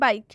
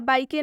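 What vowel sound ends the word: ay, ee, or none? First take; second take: none; ay. First: The word ends on the k with no vowel. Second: The word ends with an added ay sound. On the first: The speaker calls it right. "इसका हम उच्चारण कर रहे हैं बाइक, क्योंकि यहाँ पर ई silent है" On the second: The speaker calls it wrong. "हम इसका उच्चारण बाइकी या बाइके नहीं कर रहे हैं"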